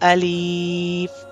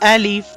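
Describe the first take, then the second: First: The word is said slow and drawn out. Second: The word is said short and quick. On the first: The speaker calls it wrong. "we cannot read this letter as Alif like that. So this sound is actually a wrong sound" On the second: The speaker calls it right. "you have to read this letter as Alif quickly"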